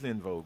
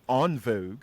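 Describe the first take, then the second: First: The first word sounds like 'in'. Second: The first word sounds like 'on'. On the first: The speaker calls it right. "no, bitch, it's in vogue" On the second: The speaker calls it wrong.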